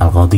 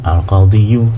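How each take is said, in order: First: The word ends without any added final syllable. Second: The word ends with an added 'yu' syllable. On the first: The speaker calls it right. "makanya dibilang al-qadhi saja" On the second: The speaker calls it wrong. "sebetulnya itu bisa di dhammah yu"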